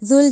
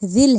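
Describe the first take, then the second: First: The first word has a 'u' vowel. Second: The first word has an 'i' vowel. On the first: The speaker calls it wrong. "जुल जला नहीं पढ़ना" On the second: The speaker calls it right. "जिल है"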